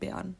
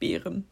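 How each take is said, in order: First: The word is clipped, with part of it swallowed. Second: The word is said fully, with every part pronounced.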